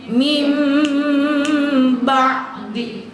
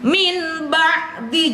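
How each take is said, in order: First: The first word ends with an m sound. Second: The first word ends with an n sound. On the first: The speaker calls it right. "jadi mim ba'di" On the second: The speaker calls it wrong. "bisa nggak baca N jadi M?"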